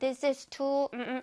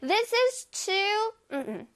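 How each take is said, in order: First: 'Too' is said plainly, without feeling. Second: 'Too' is said with strong, emotional feeling.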